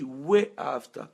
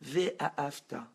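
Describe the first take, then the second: First: We-A-Afta slowly, with lips rounded into a W; rounded Waw. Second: V-A-Afta with a plain V sound and the mouth barely opening; narrow Vav. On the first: Teacher showing students the slow rounded We-A-Afta that takes in all of creation. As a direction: stretch We-A-Afta out slowly, the whole mouth going round. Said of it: "quand tu dis We-A-Afta ... toute ta bouche se transforme". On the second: Teacher showing students the narrow V-A-Afta that only takes in yourself. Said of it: "quand toi tu dis Vav". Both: Shown as a demonstration.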